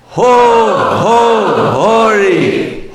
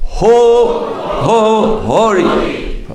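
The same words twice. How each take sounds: First: It is shouted loudly with energy. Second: It is said quietly, without a real shout.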